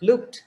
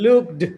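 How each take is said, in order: First: The word ends in a t sound. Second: The word does not end in a t sound. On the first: The speaker calls it right. "t, t, looked. Very easy" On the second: The speaker calls it wrong. "then it is difficult for the heart"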